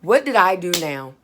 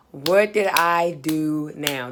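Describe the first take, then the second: First: Exasperated inner protest. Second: Slow, word-by-word dismay; drawn-out inner protest. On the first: Student summoned to the office thinks to herself, exasperated. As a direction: blurt it as a dismayed thought. Dreading a summons, in her head. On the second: Student summoned to the office repeats the thought, slowly exasperated. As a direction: stretch each word of the worried question. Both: Retold or imitated.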